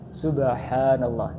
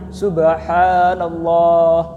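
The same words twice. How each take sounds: First: It is said at a moderate, even pace. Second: It is said very slowly and drawn out. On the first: The speaker calls it right. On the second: The speaker calls it wrong. "dia terlalu lemah"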